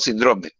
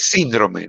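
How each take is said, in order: First: The stress is on the second syllable. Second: The stress is on the first syllable. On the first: The speaker calls it wrong. "no síndrome" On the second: The speaker calls it right. "es síndrome ... Porque es una palabra esdrújula, lleva tilde en la I"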